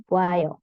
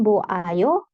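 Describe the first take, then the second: First: "bo ayo" squeezed into "bwayo"; contracted form. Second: "bo ayo" with O and A sounded separately; uncontracted form. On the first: Teacher showing the short form, "bo ayo" merged to "bwayo". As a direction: glide O and A together as "wa" in "bo ayo". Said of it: "disingkat jadi". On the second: Teacher showing what not to say, "bo ayo" with separate vowels. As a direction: say "bo ayo" slowly in full, vowels apart. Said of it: "disingkat jadi bo ayo". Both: Shown as a demonstration.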